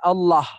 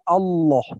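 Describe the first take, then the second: First: The lam and vowel sound thin and light. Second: The lam is thick with an O-like vowel. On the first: The speaker calls it wrong. "Bukan Allah" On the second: The speaker calls it right. "lebih kepada vokal O, ... tapi Allah"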